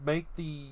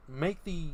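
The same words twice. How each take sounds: The two takes are said the same way.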